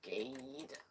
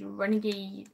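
First: Whispered. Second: Said in the usual way. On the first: Shown as a demonstration. Typing name, trying out word.

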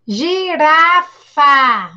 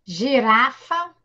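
First: Slow, loud clapped syllables; slow, loud teacher demo. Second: Slow shared demo; syllable by syllable together. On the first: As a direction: stretch out gi-ra-fa for the class. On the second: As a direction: say gi-ra-fa along with the kids. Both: Shown as a demonstration. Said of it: "Vamos lá".

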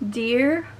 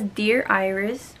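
First: Said in the usual way. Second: Slow, deliberate "Dear Iris" with each word drawn out; careful slow reading. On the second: Shown as a demonstration. Rereading the book's inscription after a flub, slow and careful. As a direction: read "Dear Iris" slowly and carefully, rising at the end.

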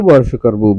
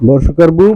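First: বর্ষকার বু again, clearly lower; বর্ষকার বু said lower as a model echo; lower repeat. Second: Said in the usual way. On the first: Shown as a demonstration. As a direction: echo the spelling back lower. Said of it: "আমার সাথে এইভাবে বানান করতে হবে". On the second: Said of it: "আমি যেভাবে বানান করি".

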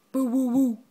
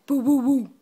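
First: Dog bark imitation. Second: Slightly louder playful woofing; dog bark imitation. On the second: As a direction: bark a bit bigger. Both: Shown as a demonstration. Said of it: "What does the doggy say?".

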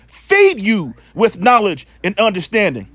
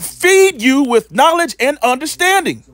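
First: Said in the usual way. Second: "Feed" hit high at the start of the line, the line pitched higher; preached emphasis. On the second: Shown as a demonstration. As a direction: proclaim "Feed you with knowledge" from the pulpit. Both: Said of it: "Shall what?".

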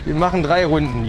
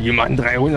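First: Said in the usual way. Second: Much lower, mock-serious repeat; lowered jokey echo of his own line; mock deep voice. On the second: Shown as a demonstration. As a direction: drop the voice low for a joke.

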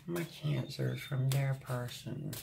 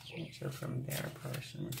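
First: Said in the usual way. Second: Soft whispered repeat of the phrase; hushed echo under the breath. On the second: Real, not acted. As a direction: breathe it back to yourself. Whispered echo of card message.

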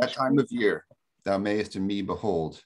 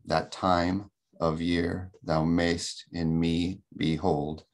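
First: Measured recital of verse; poem reading. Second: Slow "that TIME of YEAR thou MAYST in ME beHOLD"; iambic stress demo. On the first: Real, not acted. Lecturer opens class with the sonnet, reciting verse. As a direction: read the sonnet aloud with expressive phrasing. So I'll start with that. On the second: Shown as a demonstration. Teacher demonstrates the meter, stressing TIME, YEAR, MAYST, ME, HOLD. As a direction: beat out every second syllable, slowly: TIME, YEAR, MAYST, ME, HOLD. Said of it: "unaccented, accented iamb".

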